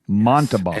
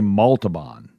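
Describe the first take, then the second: First: No L sound is heard before the end. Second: An L sound comes right after the first syllable. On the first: The speaker calls it right. "There's no L until the very end" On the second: The speaker calls it wrong. "I always say Montalban. That's not it"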